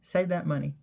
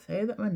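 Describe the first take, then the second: First: Said in the usual way. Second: Raised-pitch repeat of "Save that money."; higher repeat. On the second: Shown as a demonstration.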